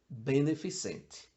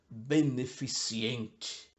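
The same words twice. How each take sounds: First: No extra i sound follows the c. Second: An extra i sound follows the c. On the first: The speaker calls it right. "Mas é beneficente" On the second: The speaker calls it wrong. "se dita beneficente"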